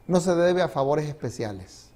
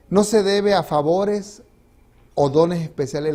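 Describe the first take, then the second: First: Said in the usual way. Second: Slow, weighty reading of the quote; slow and deliberate, preacher stressing the line; emphatic reading. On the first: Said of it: "el verdadero carácter". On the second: Shown as a demonstration. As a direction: lean on each word to drive it home.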